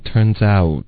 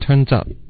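First: The vowel in out glides as a diphthong. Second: The vowel in out stays flat without gliding. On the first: The speaker calls it right. "所以需要一个out 的音" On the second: The speaker calls it wrong. "这不是一个双元音"

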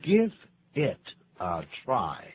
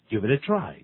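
First: The phrase is said slowly with the words separate. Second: The phrase is said quickly with the words linked. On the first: "念慢" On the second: "念快的时候"

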